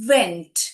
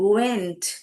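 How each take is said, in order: First: The word begins with a v sound. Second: The word begins with a rounded-lip w sound. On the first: The speaker calls it wrong. "இதை வந்து நம்ம வெண்ட் அப்படி படிக்கிறது இல்லை" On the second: The speaker calls it right. "Native speakers இப்படிதான் வந்து உச்சாரணம்"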